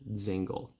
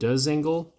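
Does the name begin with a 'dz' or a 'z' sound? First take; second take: z; dz. First: The name begins with a plain 'z' sound. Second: The name begins with a 'dz' sound. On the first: The speaker calls it right. "it's just Zingle" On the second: The speaker calls it wrong. "I've heard many people pronounce it Dzingel"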